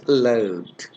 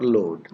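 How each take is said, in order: First: "load" drawn out with an ow glide, like "lowd"; British-American pronunciation. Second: Said in the usual way. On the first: Shown as a demonstration. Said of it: "They say load". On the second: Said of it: "They never say load".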